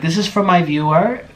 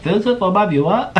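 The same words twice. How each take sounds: First: Higher, badly faked British accent. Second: High, exaggerated mock British accent; bad British accent. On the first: Vlogger quoting Orlin's video for her, bad British accent. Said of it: "when he had his British accent". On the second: Vlogger redoing Orlin's line for fun, very bad British accent. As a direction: overdo a terrible British impression. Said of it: "very bad impersonation of a British".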